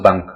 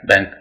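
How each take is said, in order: First: The vowel sounds like the one in cup. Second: The vowel sounds like the one in cat. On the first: The speaker calls it wrong. "हम अक्सर बोलते हैं उसको बंक" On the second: The speaker calls it right. "बहुत बड़ी गलती करते हैं"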